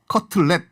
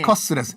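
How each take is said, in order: First: It sounds like the English word cutlet. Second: It sounds like a Japanese-accented katsuretsu. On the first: "커틀렛인데" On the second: "커스레스로 발음한 거예요"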